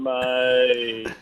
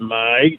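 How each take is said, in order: First: The word is said in a sad tone. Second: The word is said in an angry tone. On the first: The speaker is unhappy. "you're sad, you go" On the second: The speaker is annoyed. "you might be angry, you go"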